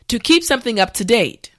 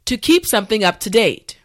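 No difference in how they are said.

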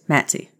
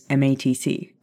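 First: The acronym is spoken as one word. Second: The acronym is spoken as separate letters. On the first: This is how it sounds in one's head. "In my head, it's Matsy, always" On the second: This is how it is said out loud at work. "at work, it's MATC"

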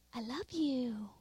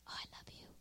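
First: It is said in a normal voice. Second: It is said in a whisper.

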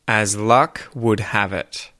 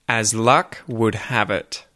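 The two takes are said the same way.

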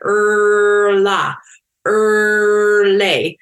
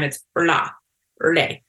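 First: It is said slowly, sounds dragged out. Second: It is said at normal speed.

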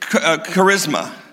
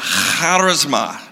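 First: It begins with a plain, clean k sound. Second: It begins with a rasping sound in the throat. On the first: "Now we say charisma" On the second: "you got to have like popcorn in the back of your throat"

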